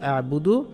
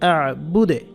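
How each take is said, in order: First: The word ends with a full vowel after d. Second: The word ends on a bouncing, echoing d. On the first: The recitation continues without stopping. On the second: The reciter stops at this word.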